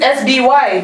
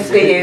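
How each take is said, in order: First: The letters are named the English way. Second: The letters are named the Indonesian way. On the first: "in English we pronounce it" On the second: "back there we call it S B Y... In the way Indonesian people spell"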